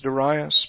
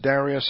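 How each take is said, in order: First: The name is said the older traditional way. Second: The name is said the common present-day way. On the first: "the older pronunciation is Darius" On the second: "We sometimes pronounce it Darius"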